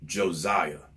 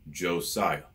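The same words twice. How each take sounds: First: The middle consonant is a buzzing Z sound. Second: The middle consonant is a hissing S sound. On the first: The speaker calls it wrong. "people put a Z there" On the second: The speaker calls it right. "it's clearly an S"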